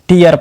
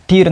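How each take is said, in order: First: The vowel glides from 'ee' to 'uh'. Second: The vowel is a plain long 'ee' sound. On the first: The speaker calls it right. "टीयर पढ़ेंगे" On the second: The speaker calls it wrong. "टीर नहीं"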